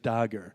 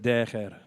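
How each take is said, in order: First: It is said with an English pronunciation. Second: It is said with a rustic Arabic pronunciation. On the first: "when he's saying it in English" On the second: "he speaks Arabic in a real peasant sort of way"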